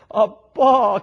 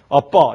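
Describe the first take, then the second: First: It is said in a coaxing childlike voice. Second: It is said in a plain adult voice. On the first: The speaker calls it right. "그래 어울려요" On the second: The speaker calls it wrong. "이건 어울리지가 않아요"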